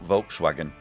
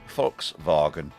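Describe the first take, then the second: First: The word is said with an English pronunciation. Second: The word is said with a German pronunciation. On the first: The speaker calls it wrong. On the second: The speaker calls it right.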